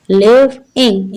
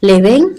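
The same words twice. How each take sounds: First: लिविंग slowly in two parts, "liv - ing"; slow two-beat लिविंग; split into syllables. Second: Said in the usual way. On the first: Shown as a demonstration. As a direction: break लिविंग after the v, each part drawn out. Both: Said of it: "इसमें टू syllables हैं".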